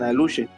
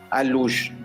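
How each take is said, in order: First: The word ends with an extra vowel sound. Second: The word ends in a sh sound. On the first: This is the form used in other areas. "según la zona, le dicen aluche" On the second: This is the local form of the word. "Nosotros localmente le decimos alush"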